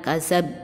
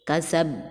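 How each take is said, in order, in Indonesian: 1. Konsonan terakhir berhenti datar tanpa memantul. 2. Konsonan terakhir dilepas dengan gema memantul. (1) "bukan kasab" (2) "tapi kasab"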